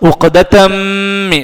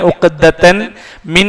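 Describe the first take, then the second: First: The final n merges into the following m. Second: The final n stays separate before min. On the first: The speaker calls it right. "ആ മീമിലേക്ക് ചേർത്ത് തൻവീൻ ഉച്ചരിക്കും" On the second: The speaker calls it wrong. "ഉഖ്ദതൻ മിൻ എന്ന് പറയാതെ"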